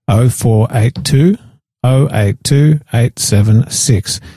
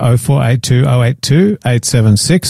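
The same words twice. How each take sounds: First: The number is read slowly. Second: The number is read at normal speed.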